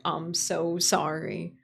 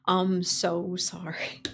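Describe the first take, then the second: First: Said in the usual way. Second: Slow, breath-only whisper; hushed apology. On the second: Real, not acted. Streamer apologizing to viewers for broken toggles, whispered. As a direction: whisper it slowly, drawn out.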